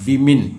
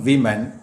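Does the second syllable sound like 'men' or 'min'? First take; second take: min; men. First: The second syllable sounds like 'min'. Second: The second syllable sounds like 'men'. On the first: The speaker calls it right. "But വിമിൻ" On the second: The speaker calls it wrong. "Is not വിമൻ"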